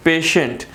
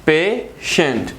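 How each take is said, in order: First: Said in the usual way. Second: patient slowly split as पे, shunt; teacher sounding out patient in two slow syllables. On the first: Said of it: "टू syllable word". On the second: Shown as a demonstration. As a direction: break patient into two separate beats, pausing after पे. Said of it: "जिसमें आ रहा है पे and shunt".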